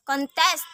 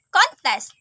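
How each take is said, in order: First: ConTEST, second syllable stressed; verb stress. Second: CONtest, high stressed first syllable; noun stress. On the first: Teacher showing learners the verb Contest, end-stressed. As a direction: say Contest with the weight on its last syllable. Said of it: "a verb". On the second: Teacher showing learners the noun Contest, front-stressed. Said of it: "a noun". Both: Shown as a demonstration.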